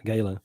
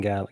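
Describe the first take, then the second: First: "gala" said GAY-luh, long a as in day; Southern pronunciation. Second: "gala" said GAL-uh, short a as in pal; short-a pronunciation. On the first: Co-host correcting herself, Southern long-a pronunciation. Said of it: "we say gala". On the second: Co-host naming the fundraiser, short-a pronunciation. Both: Real, not acted.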